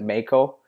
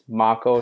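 First: It is said with a Canadian accent. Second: It is said without a Canadian accent.

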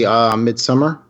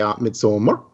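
First: The name is said with an English pronunciation. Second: The name is said with a Swedish pronunciation.

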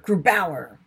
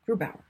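First: The stress falls on the second syllable. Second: The stress does not fall on the second syllable. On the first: The speaker calls it wrong. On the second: The speaker calls it right.

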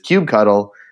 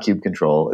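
First: The ending sounds like the word 'cuddle'. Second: The ending does not sound like 'cuddle'. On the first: The speaker calls it right. "Cuddle is the right answer. It is kubectl" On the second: The speaker calls it wrong. "It is not kubectl"

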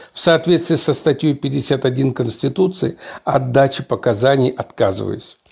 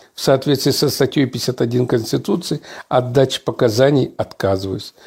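No difference in how they are said.

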